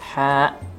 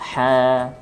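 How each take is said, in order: First: The vowel is cut off sharply at the end. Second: The vowel flows until the breath runs out. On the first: The speaker calls it wrong. "jangan sampai pengucapan huruf mad ditutup dengan suara yang tegas" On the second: The speaker calls it right. "ha mengalir sampai habis hawa nafas"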